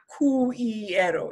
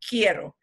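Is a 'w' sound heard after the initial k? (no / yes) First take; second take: yes; no. First: The u is sounded, like 'kwee-ero'. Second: The u is silent, like 'kee-ero'. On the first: The speaker calls it wrong. "It's not quiero" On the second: The speaker calls it right. "we don't pronounce the u. So it's key"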